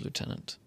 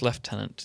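First: It is said with an American pronunciation. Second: It is said with a British pronunciation. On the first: "instead of Lieutenant" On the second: "we say Lieutenant"

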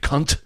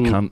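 First: The final T is clearly pronounced. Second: The final T is barely pronounced. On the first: "but Americans do. They're like" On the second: "we hardly pronounce the T when we do it"

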